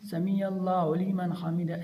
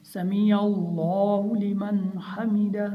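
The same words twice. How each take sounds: First: Words run into one another, little weight; run-together wrong reading. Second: Measured recitation with distinct words; each word separate. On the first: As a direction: gabble the phrase as one string. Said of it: "ऐसे हमने नहीं पढ़ना". (मिलाकर जल्दी पढ़ना) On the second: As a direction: recite word by word, giving each its full length. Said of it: "इलादा इलादा करके पढ़ना है". (अलग-अलग करके पढ़ना) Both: Shown as a demonstration.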